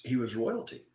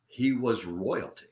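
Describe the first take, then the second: First: Said in the usual way. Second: He was royalty, slower, each word weighted; slow, emphatic "He was royalty"; stress on royalty. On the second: Shown as a demonstration. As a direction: lean slowly into "royalty".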